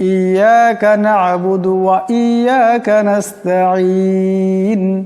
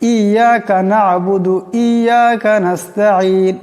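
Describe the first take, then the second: First: The 'wa' sound in the middle is clearly heard. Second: The 'wa' sound in the middle is dropped. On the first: The speaker calls it right. "আসলে উচ্চারণটা হলো" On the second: The speaker calls it wrong. "ওয়াওয়ের উচ্চারণটা হয় না, ওয়াওটা লুকিয়ে যায়"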